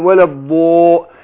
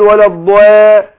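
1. الألف الطويلة 'a' تُسمع ثقيلة وممتلئة. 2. الألف الطويلة 'a' تُسمع خفيفة ورفيعة. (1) "فخمت الالف عشان الحرف اللي قبلها ايه مفخم" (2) "ينفع اقول ولا الضواء؟ ما تجيش"

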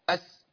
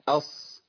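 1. صوت الـ s يُوقف فجأة ويُقطع قصيرًا. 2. صوت الـ s يستمر ويتلاشى بشكل طبيعي. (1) "وممكن اقطعه اقول اس" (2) "بسيب الصوت يمشي لوحده، ... انقطع الصوت خلاص كده لوحده"

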